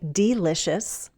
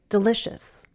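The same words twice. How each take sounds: First: The first vowel is a long E sound. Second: The first vowel is a short I sound. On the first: The speaker calls it wrong. "We don't use a long E and say delicious" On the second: The speaker calls it right. "That E is said as a short I sound"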